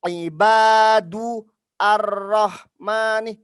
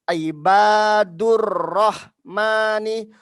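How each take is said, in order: First: The words are said separately, with a break. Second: The words are joined together without a break. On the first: The speaker calls it wrong. "bukan ibadu ar-rahmani, tidak terputus" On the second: The speaker calls it right. "dia dibacanya ibadur rahmani"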